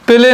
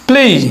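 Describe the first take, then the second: First: The vowel is a plain, short 'e' sound. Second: The vowel glides from 'e' into 'ee'. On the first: The speaker calls it wrong. "প্লে নয়" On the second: The speaker calls it right. "হয়ে যাবে প্লেই"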